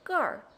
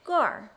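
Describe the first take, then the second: First: It ends with a curled r-sound. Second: The same.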